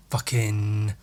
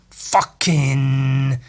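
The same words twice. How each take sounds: First: Said in the usual way. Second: "fucking" drawn out long and hard; emphatic FUCKING. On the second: Real, not acted. Painter praising his favourite stubble trick, emphatic drawn-out "fucking". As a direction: lean on "fucking", stretching it right out. Repeats word for emphatic effect.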